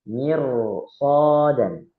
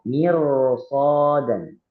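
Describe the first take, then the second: No difference in how they are said.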